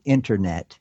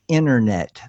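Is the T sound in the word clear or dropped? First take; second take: clear; dropped. First: The T sound in the word is clearly pronounced. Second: The T sound in the word is dropped. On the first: The speaker calls it right. "instead of internet" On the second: The speaker calls it wrong. "not have T's and D's in words"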